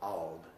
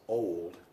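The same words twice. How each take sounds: First: The vowel is a short sound. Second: The vowel is a long sound. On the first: The speaker calls it wrong. "not old" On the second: The speaker calls it right. "you think it's old"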